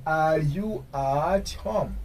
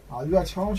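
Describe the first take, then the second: First: "Are you at home" very drawn out, falling at the end; slow model question. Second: Said in the usual way. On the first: Shown as a demonstration. Teacher modelling "Are you at home" for learners, very slow.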